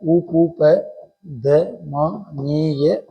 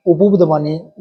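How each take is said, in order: First: Slow drawn-out. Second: Said in the usual way. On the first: Shown as a demonstration. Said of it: "teacher draws the term out". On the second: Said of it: "teacher says the term".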